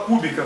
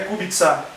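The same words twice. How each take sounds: First: The c is pronounced as a k sound. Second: The c is pronounced as a ts sound. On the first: This is how Portuguese speakers read it. The speaker calls it wrong. "em português a gente lê e fala Kubica, porque tem o C lá" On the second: This is how it is said in the original language. The speaker calls it right. "nos outros países eslavos é Ts. Então é por isso que o nome é Kubica"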